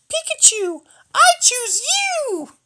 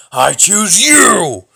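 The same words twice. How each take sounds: First: Squeaky falsetto, drawn out at the end; really high-pitched voice. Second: Loud, drawn-out rough shout; Batman-like growl. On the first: Choosing Pikachu for battle, really high-pitched cry. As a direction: call it out in a hugely high, cartoonish squeal. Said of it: "say in this really high-pitched voice". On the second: Choosing a card for battle, loud Batman growl. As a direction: roar it like an over-the-top Batman. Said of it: "we're not being Batman here". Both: Acted.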